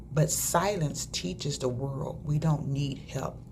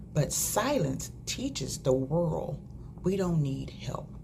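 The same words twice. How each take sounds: No difference in how they are said.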